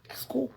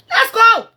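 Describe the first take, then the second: First: Said in the usual way. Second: Sudden loud high shout; yelling let's go. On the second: Real, not acted. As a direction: blast it out to dismiss her. Repeated dismissal, quiet then loud.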